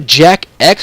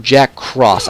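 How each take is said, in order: First: The X is read as the letter name. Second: The X is read as the word cross. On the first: "It's either Jack X or Jack Cross" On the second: "It's either Jack X or Jack Cross"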